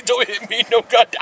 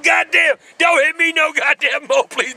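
First: Said in the usual way. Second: Mock begging. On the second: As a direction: ham up begging not to be hit. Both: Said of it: "What kind of moves was he doing".

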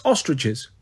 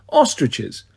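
First: Said in the usual way. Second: Ostriches? dropped low in a laughing disbelieving fall; amused disbelief. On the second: Acted. Apollo mocks the emperor's odd choice, incredulous. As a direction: repeat Ostriches? like it's absurd. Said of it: "I laughed at that".

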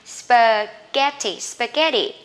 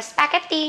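First: Spaghetti with a weak first syllable, stress on GET; English spaghetti. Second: Spaghetti with a Vietnamese accent, every syllable even; Vietnamese-style spaghetti. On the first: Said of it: "các bạn không đọc là spaghetti nhá". (spaghetti đọc kiểu tiếng Anh, nhấn âm giữa) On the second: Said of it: "đó là cách đọc của người Việt". (spaghetti đọc kiểu người Việt, âm t rõ) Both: Shown as a demonstration.

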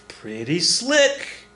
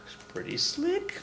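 First: "pretty slick" very slow, rising high, in full voice; savouring. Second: "slick" soft and very high, drawn out; slow, hushed squeak on "slick"; sly aside. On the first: Teacher admiring the blind pig trick, savouring it slowly. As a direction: stretch out "slick" with relish. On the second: Teacher admiring the blind pig trick, sly hushed aside. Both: Real, not acted.

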